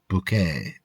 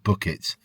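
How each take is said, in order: First: It sounds like 'boo-kay', stressed on the last syllable. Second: It sounds like 'bucket', stressed on the first syllable.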